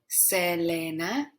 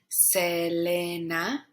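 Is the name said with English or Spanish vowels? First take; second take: Spanish; Spanish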